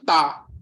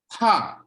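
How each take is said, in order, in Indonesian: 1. Suku kata ini dibaca dengan bunyi Indonesia. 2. Suku kata ini dibaca dengan bunyi Mandarin. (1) "tapi bacanya tidak boleh ta" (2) "Jadi tidak bisa dibaca secara Indonesia"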